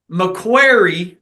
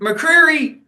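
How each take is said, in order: First: The middle consonants sound like 'kw'. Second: The middle consonants sound like 'kr'. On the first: The speaker calls it right. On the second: The speaker calls it wrong.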